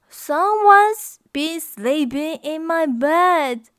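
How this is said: A fretful, worried voice, as Mama Bear.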